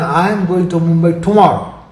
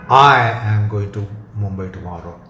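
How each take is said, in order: First: The word "tomorrow" carries the stress. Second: The word "I" carries the stress. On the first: No other day is meant. "rules out the day after tomorrow or any other following day" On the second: Only this person is going, nobody else. "emphasis on I excludes some proxy"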